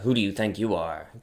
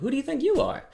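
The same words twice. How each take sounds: First: It sounds like a hostile, dismissive challenge. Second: It sounds like a sincere, curious question.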